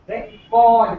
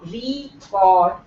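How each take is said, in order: First: The stress is on the second syllable. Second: The stress is on the first syllable. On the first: The speaker calls it right. "where C is being stressed" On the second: The speaker calls it wrong. "not record"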